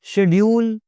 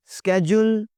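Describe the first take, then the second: First: "शेड्यूल" as SHED-yool, higher; sh version. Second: "स्केड्यूल" as SKED-yool, higher; sk version. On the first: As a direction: start "शेड्यूल" with a sh sound. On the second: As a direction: start "स्केड्यूल" with a hard sk. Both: Shown as a demonstration. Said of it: "दोनों चलते हैं जी".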